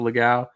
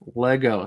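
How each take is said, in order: First: The name sounds like 'Legao'. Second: The name sounds like 'Lego'. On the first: The speaker calls it wrong. "I have always pronounced it Legao" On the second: The speaker calls it right. "Lego, right?"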